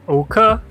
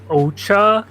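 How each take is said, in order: First: The middle consonant is a k sound. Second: The middle consonant is a ch sound.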